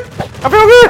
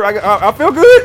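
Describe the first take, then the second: First: Much higher, loud yell of joy; joyous shout. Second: Said in the usual way. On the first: Real, not acted. Gamer shouting his relief after the win, joyous yell. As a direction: belt it out in triumph.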